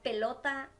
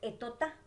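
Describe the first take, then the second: First: The word starts with a P sound. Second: The P is dropped and L becomes T. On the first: The speaker calls it right. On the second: The speaker calls it wrong.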